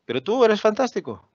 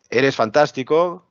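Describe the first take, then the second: First: "tú" stressed and much higher, with "fantástico" falling; high-pitched take punching "tú", then a falling finish; contrasting intonation. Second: "Eres fantástico" said slowly and louder, rising on "fantástico"; slow, rising compliment ending up on "fantástico"; drawn-out "Eres fantástico" with an upward tune at the end; one intonation. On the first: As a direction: hit "tú" high, let "eres fantástico" fall away. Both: Shown as a demonstration. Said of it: "La entonación cambia".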